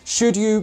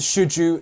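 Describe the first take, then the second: First: The D and Y are said separately. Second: The D and Y join into a j sound.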